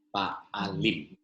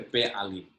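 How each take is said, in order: First: "Paalim" with "pa" as first syllable; mistaken vowel Paalim. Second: "P alim" with "pe" as first syllable; corrected vowel Pe'alim. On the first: Teacher misreading the plural, "Paalim" begun with "pa". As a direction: open "a" in the start of "Paalim". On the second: Teacher correcting the plural, "P alim" begun with "pe". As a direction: say "P alim" as pe-a-LIM. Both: Real, not acted. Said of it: "P alim, sorry, P alim".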